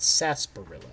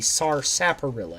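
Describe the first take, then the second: First: The word is said differently from its spelling. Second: Every written letter of the word is pronounced. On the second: "if you actually pronounced it as it is written"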